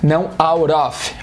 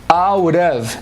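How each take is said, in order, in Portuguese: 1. A palavra 'of' termina com som de f. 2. A palavra 'of' termina com som de v. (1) "não é off" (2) "Of, é um som de O V"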